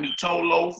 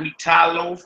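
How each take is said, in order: First: An 'oh' vowel is sounded after the t. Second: An 'ai' vowel is sounded after the t. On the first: "not meat toe loaf" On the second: "not meat tie loaf"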